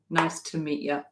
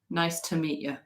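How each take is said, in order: First: The small words have reduced, schwa-like vowels. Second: The small words have reduced, schwa-like vowels.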